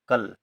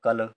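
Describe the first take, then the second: First: The l closes the syllable with no vowel after it. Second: A full vowel sound follows the l. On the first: The speaker calls it right. "ला का हो रहा है बहुत कम समय के लिए, तो आधा ला" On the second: The speaker calls it wrong. "यदि पूरा ला लिख देंगे तो हो जाएगा कल"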